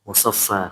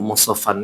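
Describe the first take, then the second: First: The word ends with a long vowel. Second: The word ends with an n sound. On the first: The reader stops on this word. "kalau berhenti" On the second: The reading continues without stopping. "Seharusnya ini musafan"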